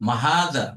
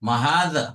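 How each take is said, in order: The two takes are said the same way.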